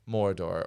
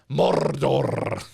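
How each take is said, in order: First: The R sounds are plain, not trilled. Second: The R sounds are strongly trilled.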